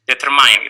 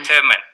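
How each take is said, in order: First: The last syllable sounds like 'mine'. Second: The last syllable is short, like 'min'. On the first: The speaker calls it wrong. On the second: The speaker calls it right.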